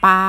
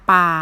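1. ระดับเสียงคงที่อยู่กลาง 2. ระดับเสียงต่ำตลอด

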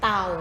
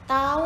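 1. พยางค์นี้มีเสียงต่ำ 2. พยางค์นี้มีเสียงกลาง (1) "เสียงเอก" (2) "เสียงสามัญ"

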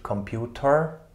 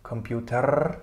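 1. Das Wort endet mit einem hörbaren r-Laut. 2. Das Wort endet mit einem hörbaren r-Laut.

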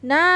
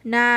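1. พยางค์นี้ออกเสียงด้วยเสียงตก 2. พยางค์นี้ออกเสียงด้วยเสียงสามัญ (1) "คำว่าหน้าเป็นเสียงโท" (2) "คำว่านาเป็นเสียงสามัญ"

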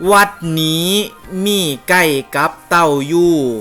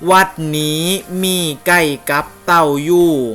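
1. พูดด้วยวรรณยุกต์ของภูไท 2. พูดด้วยวรรณยุกต์ของภูไท

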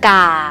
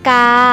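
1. พยางค์นี้ออกเสียงเอก 2. พยางค์นี้ออกเสียงสามัญ (1) "กาไม้เอก" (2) "เสียงนี้เป็นเสียงสามัญนะคะ"

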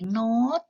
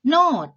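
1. พยางค์นี้ออกเสียงวรรณยุกต์เสียงสูง 2. พยางค์นี้ออกเสียงวรรณยุกต์เสียงตก (1) "พอเติมไม่โท, เสียงตรีเป็นเสียงโน้ต" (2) "ไม่มีวรรณยุกต์นะคะ, พื้นเสียงเป็นเสียงโท"

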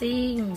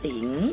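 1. คำว่า "สิง" ออกเสียงตก 2. คำว่า "สิง" ออกเสียงขึ้น

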